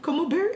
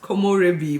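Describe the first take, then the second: First: The word is said as ko-mo-berry. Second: The word is said as ko-mo-re-bi. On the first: The speaker calls it wrong. "I mispronounced it so much" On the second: The speaker calls it right. "I constantly mispronounced Komorebi"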